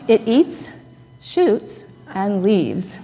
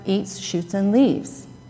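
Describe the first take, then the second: First: It is said with pauses after eats and shoots. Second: It is said smoothly without pauses between words.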